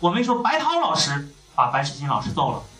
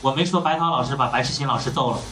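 First: The name 白涛 is stressed. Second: It is flat with no word stressed.

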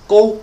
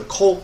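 First: The word begins with a voiced g sound. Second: The word begins with a voiceless k sound. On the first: "读成中国的时候读成什么呀？ 国" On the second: "而韩国是国，不一样"

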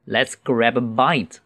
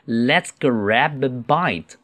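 First: It is read at a normal, quick speed. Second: It is read slowly and deliberately. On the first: "我用正常的语速先读一次。" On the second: "慢读一次。"

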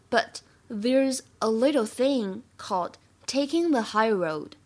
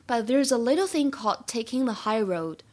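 First: The line is read slowly and deliberately. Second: The line is read at a normal speaking pace.

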